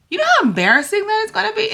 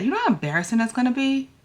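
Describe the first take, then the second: First: High, fast, squeaky panic; panicky high voice. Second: Said in the usual way. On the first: Real, not acted. Telling viewers about her fear, high and frantic. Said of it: "the little girl inside of me is freaking out". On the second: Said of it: "freaking out".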